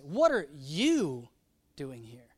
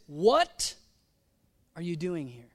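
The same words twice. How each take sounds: First: The word you carries the emphasis. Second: The word what carries the emphasis. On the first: Of all people, this one should not be here. "Like you, Elijah, of all people" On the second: Asking what exactly is going on here. "What? What?"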